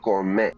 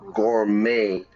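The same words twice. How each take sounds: First: The final t is sounded. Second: The final t is silent. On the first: The speaker calls it wrong. "not gourmet" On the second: The speaker calls it right. "we don't pronounce the T"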